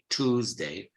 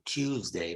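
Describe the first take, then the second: First: It is said in an American accent. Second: It is said in a posh British accent. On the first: "The American Tuesday or Tuesday, generally they say Tuesday" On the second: "the posh received pronunciation, like the Queen or the King, they say Tuesday"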